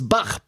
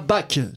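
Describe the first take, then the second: First: The name ends in a throaty, rasping ch sound. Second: The name ends in a hard k sound. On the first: The speaker calls it right. "une bonne fois pour toutes, ça se prononce Bach" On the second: The speaker calls it wrong. "pas Bach"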